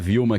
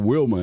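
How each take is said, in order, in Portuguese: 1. O nome começa com som de V. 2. O nome começa com som de W. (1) "A gente fala Vilma" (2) "lá é o Wilma"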